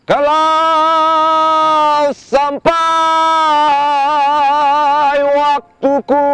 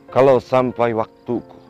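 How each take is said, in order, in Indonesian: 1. Diucapkan dengan nada tinggi. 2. Diucapkan dengan nada sangat rendah. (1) "ini saya buat dengan nada tinggi" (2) "lebih rendah lagi"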